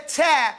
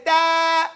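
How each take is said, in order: First: Ta said the wrong way. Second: Ta slow and sung out, bounced cleanly; correct Arabic ta. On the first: To the class, the wrong ta to avoid. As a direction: show the mistaken ta. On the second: To the class, the proper ta shown slowly. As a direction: press and step off the ta. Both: Shown as a demonstration. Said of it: "that's the difference".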